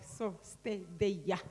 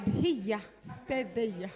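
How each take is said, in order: First: Imitating a toddler. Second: "stay there" said as "sted eja", with a soft "eja" ending; "Here" as "hija", "there" as "eja", like a small grandchild. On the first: Grandmother mimicking her grandson's slow, lowered little order. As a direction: lower and softer, slow "so sted eja" in a small child's voice. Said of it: "when he's like". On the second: Real, not acted. Teacher sending people aside in her grandson's toddler speech. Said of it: "He has given me this accent of here, there".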